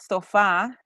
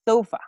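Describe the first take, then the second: First: The stress is on the second syllable. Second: The stress is on the first syllable. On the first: The speaker calls it wrong. "It's not sofa" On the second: The speaker calls it right. "they always stress at the first syllable"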